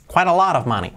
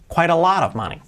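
The two takes are said the same way.

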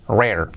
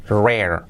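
The two takes are said the same way.

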